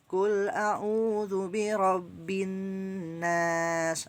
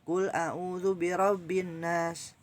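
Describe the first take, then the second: First: The nasal sound is held for its full length. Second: The nasal sound is cut short, not held. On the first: The speaker calls it right. "itu pas" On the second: The speaker calls it wrong. "kurang ditahan"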